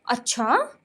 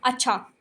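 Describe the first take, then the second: First: It is said with a questioning tune. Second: It is said as a plain, level statement.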